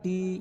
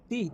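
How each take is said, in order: First: The vowel is drawn out longer. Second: The vowel is short and quick. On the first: "জেরের বাম পাশে জজমযুক্ত ইয়া হয়েছে, সেজন্য টান দিয়েছি" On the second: "হরকতের উচ্চারণ তাড়াতাড়ি পড়িতে হয়"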